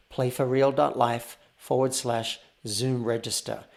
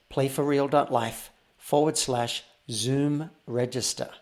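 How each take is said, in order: Both takes have the same delivery.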